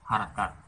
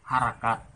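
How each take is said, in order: Both takes have the same delivery.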